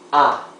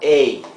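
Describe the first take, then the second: First: The vowel sounds fully open. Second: The vowel sounds closed rather than open. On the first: The speaker calls it right. "So it's an open sound" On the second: The speaker calls it wrong. "It's not A"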